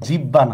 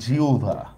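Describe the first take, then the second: First: The middle is said with a doubled b sound. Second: The middle is said with a u-bh sound. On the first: The speaker calls it wrong. "এটা কিন্তু জিব্বা না" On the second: The speaker calls it right. "এটা হচ্ছে জিউভা"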